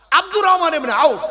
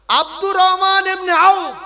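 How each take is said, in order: First: Said in the usual way. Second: "Abdur Rahman ibn আউফ" said slowly, louder and higher, each word weighted; slow emphatic name. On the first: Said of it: "কি নাম বললাম?". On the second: Shown as a demonstration. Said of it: "একটু বলেন।". ("আব্দুর রহমান ইবনে আউফ" ধীরে, জোরে, প্রতিটি শব্দে জোর দিয়ে)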